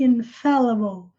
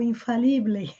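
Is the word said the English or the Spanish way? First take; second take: English; Spanish. First: It is said with English vowels and sounds. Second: It is said with Spanish vowels and sounds. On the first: The speaker calls it right. "É infallible" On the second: The speaker calls it wrong. "que nem em espanhol infalible"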